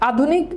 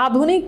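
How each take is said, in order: First: আধুনিক repeated alone, higher, with a rising end; stressed reminder. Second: Said in the usual way. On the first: Shown as a demonstration. Teacher repeating আধুনিক so students remember it, high and rising. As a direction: lift আধুনিক up as a key word to remember. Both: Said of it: "মনে রাখবেন".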